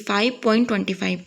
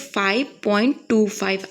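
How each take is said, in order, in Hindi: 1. Point के बाद के अंक एक साथ पढ़े जाते हैं। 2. पॉइंट के बाद के अंक अलग-अलग पढ़े जाते हैं। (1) "आप इसको ऐसे नहीं पढ़ोगे ... ये गलत है" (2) "उनको अलग अलग पढ़ते हैं"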